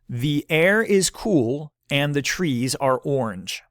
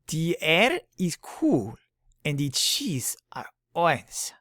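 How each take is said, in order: First: It is said in the speaker's own accent. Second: It is said in a put-on foreign accent.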